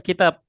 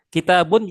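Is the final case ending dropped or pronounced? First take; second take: dropped; pronounced. First: The final case ending is dropped. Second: The final case ending is pronounced. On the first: The speaker calls it wrong. "kita jangan baca kitab" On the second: The speaker calls it right. "sampai harokat akhirnya dibaca juga"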